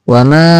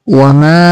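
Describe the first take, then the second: The two takes are said the same way.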